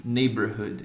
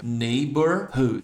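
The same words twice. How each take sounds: First: Said in the usual way. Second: "Neighborhood" drawn out syllable by syllable; "Neighborhood" broken down slowly for learners; slow word demo. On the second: Shown as a demonstration. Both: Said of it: "Palavrão aqui, ó".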